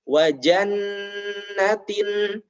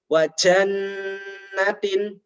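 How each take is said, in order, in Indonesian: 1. Bunyi j diucapkan tanpa hembusan nafas yang kuat. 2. Bunyi j diucapkan dengan hembusan nafas yang kuat. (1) "seharusnya diucapkan" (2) "menjadi salah ketika seperti ini"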